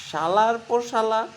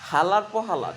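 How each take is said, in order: First: The key words begin with an sh sound. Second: The key words begin with an h sound. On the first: This is the standard way of saying it. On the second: This is the regional Madaripur way of saying it.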